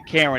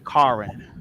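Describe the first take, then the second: First: The name is said in a standard, non-Southern way. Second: The name is said in a Southern way. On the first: "In the South, they don't say Karen" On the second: "they say Karen. That's what they say"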